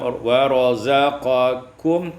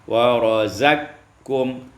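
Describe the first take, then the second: First: A vowel separates the q and k sounds. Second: The q sound merges straight into the k.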